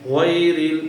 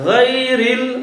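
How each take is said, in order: First: An extra w sound is added after the first consonant. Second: No w sound; the first consonant comes from the throat. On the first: The speaker calls it wrong. "এখানে কিন্তু ওয়াও over আসলো... এভাবে কিন্তু বলা যাবে না" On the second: The speaker calls it right. "একেবারে হলকের শেষ ভাগ থেকে গ"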